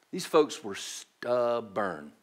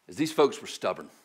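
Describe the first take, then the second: First: Slow, low Southern American English drawl; Southern English accent. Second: Said in the usual way. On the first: Shown as a demonstration. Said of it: "in the best Southern English I can". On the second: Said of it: "in the best Southern English".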